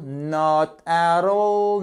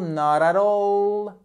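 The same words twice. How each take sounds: First: NOT, then AT ALL, slow and drawn out; words separated. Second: NOT AT ALL in one slow, higher, unbroken stroke; run together as one word. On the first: Teacher takes the phrase apart for learners, words separated. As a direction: say "Not at all" slowly with a break after NOT. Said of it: "tout d'un trait". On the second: Teacher puts the phrase back together for learners, run together as one word. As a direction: glide through "Not at all" without a break. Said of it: "comme si c'était un seul mot". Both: Shown as a demonstration.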